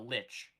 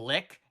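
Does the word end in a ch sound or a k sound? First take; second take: ch sound; k sound. First: The word ends with a ch sound. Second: The word ends with a hard k sound. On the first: The speaker calls it right. "No, no, that's a lich. the C H makes a T sound" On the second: The speaker calls it wrong. "they kept calling it a"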